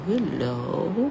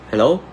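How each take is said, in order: First: The hello sounds soft and polite. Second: The hello sounds harsh and angry. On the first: The caller is someone to be respected. "Very polite" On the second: The caller is interrupting a heated quarrel. "Parang galit"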